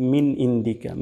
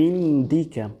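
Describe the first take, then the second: First: ইনদিকা with a plain i, no ain; wrong indika. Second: ইনদিকা started with a pressed throat ain; stressed ইনদিকা; ain with pressure. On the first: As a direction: careless মিন ইনদিকা. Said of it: "আইনের উচ্চারণটা হচ্ছে না". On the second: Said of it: "আইন দিয়ে, চাপ দিয়ে বলতে হবে". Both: Shown as a demonstration.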